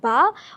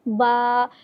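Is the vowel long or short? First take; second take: short; long. First: The vowel is short and not stretched. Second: The vowel is stretched out long. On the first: "यहाँ पर ये हरकत है बा ज़बर बा" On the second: "एक अलिफ की मिक़दार खींच के पढ़ेंगे"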